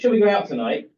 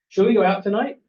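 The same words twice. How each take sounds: First: It sounds confident, without an uncertain rise. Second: It sounds uncertain, rising at the end.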